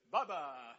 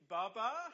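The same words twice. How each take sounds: First: It is said plainly and calmly, without alarm. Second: It is said anxiously, with a questioning rise. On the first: The bunny is simply present. "Bubba just means Bubba's in the room" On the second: The bunny is missing and being looked for. "Where is he?"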